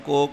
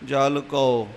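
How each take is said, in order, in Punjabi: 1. ਇਹ ਸ਼ਬਦ ਇੱਕ ਹੀ 'o' ਸਵਰ ਨਾਲ ਉਚਾਰਿਆ ਜਾਂਦਾ ਹੈ। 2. ਇਹ ਸ਼ਬਦ 'au' ਸਵਰ ਨਾਲ ਉਚਾਰਿਆ ਜਾਂਦਾ ਹੈ। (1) "ਐਸਾ ਉਚਾਰਨ ਕੋ ਕਰਕੇ ਨਹੀਂ ਕਰਨਾ" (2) "ਜਲ ਕਉ ਇਸ ਤਰ੍ਹਾਂ ਉਚਾਰਨ ਕਰਨਾ ਹੈ"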